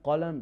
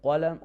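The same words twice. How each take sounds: The two takes are said the same way.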